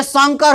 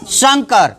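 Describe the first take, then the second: First: शंकर said as "sankar"; शंकर turned into संकर; plain s instead. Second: शंकर with a clear "shan-" start; शंकर as "shankar", sounded out alone; palatal sh. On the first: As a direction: open शंकर with a plain hissed s, not sh. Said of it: "सुनो, ये शंकर हो गया". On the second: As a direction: model शंकर with a hushing sh. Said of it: "अगर ये पढ़ते हैं". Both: Shown as a demonstration.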